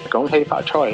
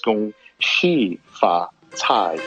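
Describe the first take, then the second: First: The greeting is said in Cantonese. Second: The greeting is said in Mandarin.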